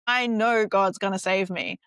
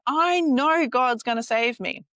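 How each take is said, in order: First: Said in the usual way. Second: Slower, louder, higher stubborn insistence; insistent. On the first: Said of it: "He's like". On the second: Retold or imitated. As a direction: dig in and refuse, slow and loud. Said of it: "he goes".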